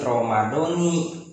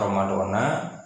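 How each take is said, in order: First: The word ends with an 'i' vowel. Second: The word ends with an 'a' vowel. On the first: The speaker calls it right. "begitu membacanya, harus Ramadoni" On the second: The speaker calls it wrong. "ada yang dibaca Ramadona"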